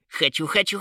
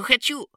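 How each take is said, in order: First: Little troll yelling, voice rising; loud yell. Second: A far higher, louder peak of the yell; shrieking at top pitch. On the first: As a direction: shout it like a greedy child. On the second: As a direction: scream the last word out. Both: A narrator's reading. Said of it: "заорал благим матом троллёнок".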